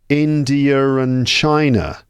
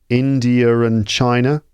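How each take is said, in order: Both takes have the same delivery.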